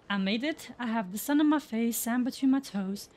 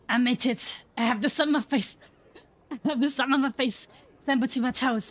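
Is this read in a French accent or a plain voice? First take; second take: plain; French accent. First: It is read in the speaker's plain own voice. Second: It is read in a put-on French accent.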